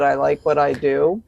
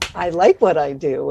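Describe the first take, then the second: First: It is said in a flat monotone. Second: It is said with lively ups and downs. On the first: The speaker calls it wrong. "you sound like the guy Ben Stein, Ferris Bueller" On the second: The speaker calls it right.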